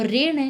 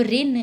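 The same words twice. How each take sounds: First: Said in the usual way. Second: ऋण ending in dental n; Eastern Hindi n. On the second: Shown as a demonstration. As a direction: say ऋण as 'rin', no retroflex. (ऋण में ण की जगह न) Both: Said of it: "ण का न हो जाता है".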